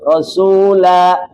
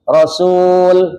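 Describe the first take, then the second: First: The word ends with a vowel held two counts. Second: The word stops short without a final vowel. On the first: The speaker calls it right. "Dua harakat" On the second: The speaker calls it wrong. "Jangan dibaca Rasul"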